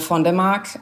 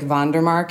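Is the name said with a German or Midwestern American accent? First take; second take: German; Midwestern American. First: It is said with a German pronunciation. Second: It is said in a flat Midwestern American accent.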